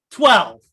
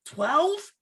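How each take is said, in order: First: Louder, falling, stating it firmly; emphatic repeat. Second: High, rising disbelief; can't believe the number you heard; incredulous question. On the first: Repeating his friend's dose back, loud and emphatic. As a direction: land the number like a verdict. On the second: Hearing his friend's dose, asking in disbelief. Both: Real, not acted.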